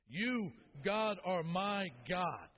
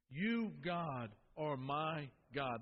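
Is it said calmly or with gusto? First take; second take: with gusto; calmly. First: It is said loudly, with great energy. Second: It is said calmly, without extra energy.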